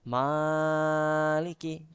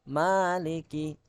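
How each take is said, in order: First: The first vowel is drawn out too long. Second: The first vowel is held for two beats. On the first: The speaker calls it wrong. "Malikinya terlalu panjang" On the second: The speaker calls it right. "Ma-nya dibaca dua ketukan atau dua harokat"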